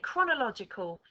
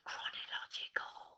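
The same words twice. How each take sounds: First: The word is said in a loud voice. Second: The word is said in a quiet voice. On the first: "Bit louder this time" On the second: "I want you to say it in a quiet voice"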